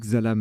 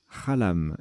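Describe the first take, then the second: First: The word begins with a 'ks' sound. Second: The word begins with a throaty 'kh' sound. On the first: The speaker calls it wrong. "j'ai dit Xalam" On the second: The speaker calls it right. "mais en fait ça se prononce Khalam"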